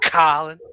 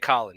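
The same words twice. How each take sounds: First: The O vowel is drawn out and emphasized. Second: The O vowel is short and plain. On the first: "You like accentuate the O. You're like Colin" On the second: "You don't just say Colin"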